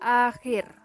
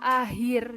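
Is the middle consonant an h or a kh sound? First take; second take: kh; h. First: The middle consonant is a rough kh. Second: The middle consonant is a plain h. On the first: The speaker calls it right. "harusnya terbaca akhir" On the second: The speaker calls it wrong. "fonem K H diucapkan menjadi H"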